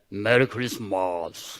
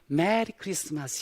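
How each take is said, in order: First: It is said flatly, without joy. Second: It is said cheerfully and brightly.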